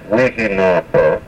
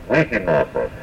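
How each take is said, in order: First: Wihinapa with the accent after the first syllable; stress on first syllable. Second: Wihinapa again, accent after the first syllable, falling; stress on first syllable. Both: Shown as a demonstration. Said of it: "The accent here is after the first syllable".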